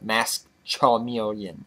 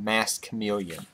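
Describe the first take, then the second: First: The second word is said as charmeleon. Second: The second word is said as chameleon. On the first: This is a personal mispronunciation of the name. The speaker calls it wrong. "I mispronounced it" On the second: This is the card's real name. The speaker calls it right. "this card's name is actually called Masked Chameleon"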